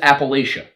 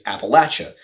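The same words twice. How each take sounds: First: The word is pronounced the way it is spelled. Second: The word is pronounced the traditional cultural way. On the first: "if you actually take it and you pronounce it as it is spelled" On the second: "if you're looking at it through a cultural context"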